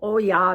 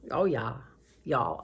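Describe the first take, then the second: First: Said in the usual way. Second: "Oh, yeah" drawled low in a light Southern accent; playful Southern accent. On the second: Shown as a demonstration. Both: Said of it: "Anyway, I love accents".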